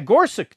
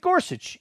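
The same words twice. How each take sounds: First: The name ends with a k sound. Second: The name ends with a ch sound. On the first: This is how the name's owner says it. The speaker calls it right. "With a K sound at the end. Yeah, Gorsuch. That's how he pronounces it" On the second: This is how most people say the name. The speaker calls it wrong. "they still pronounce it Gorsuch"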